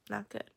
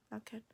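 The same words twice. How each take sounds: First: Said in the usual way. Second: "Not good." barely voiced, much softer; muttered under breath. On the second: Real, not acted. Vlogger repeating it to herself about her hair, quiet mutter. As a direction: let "Not good." fall away to yourself.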